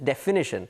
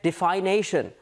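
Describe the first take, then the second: First: The third syllable has a short 'ih' vowel. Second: The third syllable has a long 'ay' vowel. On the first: The speaker calls it right. "The correct pronunciation is definition" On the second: The speaker calls it wrong. "you get defination. That's not the correct pronunciation"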